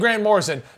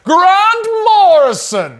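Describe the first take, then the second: First: The name is said in a plain, ordinary voice. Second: The name is said in a grand, booming voice.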